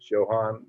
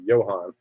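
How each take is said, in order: First: The name begins with a J sound. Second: The name begins with a Y sound. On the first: The speaker calls it right. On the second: The speaker calls it wrong.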